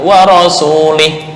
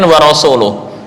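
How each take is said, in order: First: The word ends with an 'ih' sound. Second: The word ends with an 'uh' sound. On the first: The speaker calls it wrong. "diganti harokatnya wa rasulih. Itu artinya sudah fatal" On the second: The speaker calls it right. "Di sini kan wa rasuluh"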